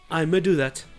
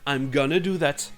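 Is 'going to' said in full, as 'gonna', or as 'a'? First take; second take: a; gonna. First: Going to is reduced to a single vowel. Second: Going to is reduced to gonna. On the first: It is a very casual way of speaking. "Très familièrement et encore moins accentué, vous trouverez I'm a" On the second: It is a casual way of speaking. "c'est la contraction familière de going to"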